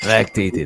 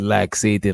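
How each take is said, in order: First: The middle has a 'kt' sound, like lactate. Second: The middle has a 'ks' sound, like laxative. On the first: The speaker calls it right. "Lactating. My fault" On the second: The speaker calls it wrong. "I said laxating, like laxative"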